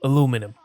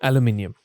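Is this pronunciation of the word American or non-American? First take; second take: American; non-American. First: The word is said the American way. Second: The word is said in a non-American way.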